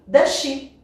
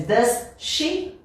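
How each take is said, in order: First: DOES SHE as a louder, higher "duh-shee"; DOES SHE linked. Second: DOES SHE as two words, S then SH; DOES SHE unlinked. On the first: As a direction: merge DOES SHE into one SH. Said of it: "mais natural pra gente juntar". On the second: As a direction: keep the S of DOES apart from SHE. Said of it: "Ao invés de does she". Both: Shown as a demonstration.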